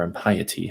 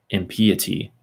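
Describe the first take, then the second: First: "impiety" said im-PIE-uh-tee; impiety with long i. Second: "impiety" said im-PEE-uh-tee; impiety with short i. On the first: Reader offering another reading, "impiety" said im-PIE-uh-tee. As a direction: stress the middle of "impiety" as PIE. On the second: Reader unsure of the word, "impiety" said im-PEE-uh-tee. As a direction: stress the middle of "impiety" as PEE. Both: Shown as a demonstration. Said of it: "however you say that".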